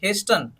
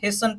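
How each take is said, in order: First: The t sound is pronounced in the middle. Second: The t sound is silent in the middle. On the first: The speaker calls it wrong. "इसको हिस्टन नहीं पढ़ना है" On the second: The speaker calls it right. "हिस्सन पढ़ना है"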